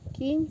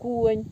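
First: The word is said with an 'i' vowel. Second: The word is said with an 'o' vowel. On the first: This is the standard form. "На кінь кажуть" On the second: This is the local village form. "кажуть конь"

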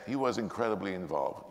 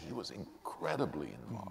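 First: The word incredibly gets no special emphasis. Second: The word incredibly is strongly emphasized. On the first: The speaker calls it wrong. "So you don't say" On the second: The speaker calls it right. "the word that you want to really accentuate is incredibly"

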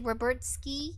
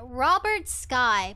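First: The last syllable rhymes with 'ski'. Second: The last syllable rhymes with 'sky'. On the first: "But instead they say Robert Ski" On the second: "Why don't they spell say it like that?"

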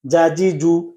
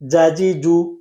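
No difference in how they are said.

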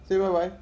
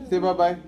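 Both takes have the same delivery.

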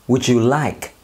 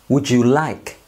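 No difference in how they are said.

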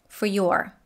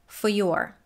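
The two takes are said the same way.

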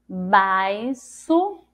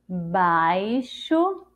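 First: The x is sounded as an s. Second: The x is sounded as sh. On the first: The speaker calls it wrong. "Vamos tentar com som de si" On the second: The speaker calls it right. "E com o som do C H?"

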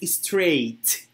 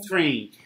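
First: The word ends with a clear t sound. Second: The word ends with an n-like sound. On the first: The speaker calls it right. "but it's straight" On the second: The speaker calls it wrong. "You're saying like this"

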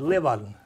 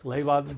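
First: The first vowel is an i-sound, as in ik. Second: The first vowel is an ee-sound without the u. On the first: This is how people from Leeuwarden say it. "En een Leeuwarder, die zei Leeuwarden. En dat is de ik-klank" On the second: This is how people from Franeker say it. "Franekers die zeggen Leeuwarden. Zonder de U"

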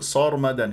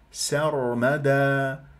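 First: The first s sound is heavy and emphatic. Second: The first s sound is light and thin. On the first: The speaker calls it wrong. "فأنا أفخم أقول صرمدا" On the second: The speaker calls it right. "هي ساء، سر"

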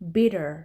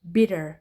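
First: It is said in an American accent. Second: It is said in an American accent.

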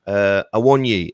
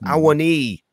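First: The name ends with a short final vowel. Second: The name ends with a long 'ee' vowel. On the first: This is how people in England say the name. The speaker calls it wrong. "Everyone in England says Awoniyi" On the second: This is how the player's own people say the name. The speaker calls it right. "It's like a double E at the end"

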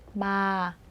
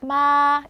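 First: The syllable is said on a low pitch. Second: The syllable is said on a high pitch. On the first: "이거는 낮아지죠" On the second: "이거는 높고"

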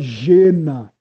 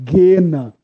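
First: The word begins with a soft G sound. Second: The word begins with a hard G sound. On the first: The speaker calls it wrong. "não é Gena" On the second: The speaker calls it right. "se fala G de gato"

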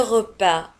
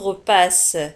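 First: The word ends on a vowel with no s. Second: The word ends with an audible s sound. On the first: The speaker calls it right. "نجد في نهاية الكلمة S ولا تنطق" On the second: The speaker calls it wrong. "لا نقول repas"

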